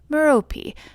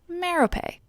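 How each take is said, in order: First: It is said in the likely original style. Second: It is said in the familiar modern film style. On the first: This is probably the authentic form. "Probably actually pronounced" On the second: This is the form the speaker chooses to use. "I go with the Harry Potter pronunciation"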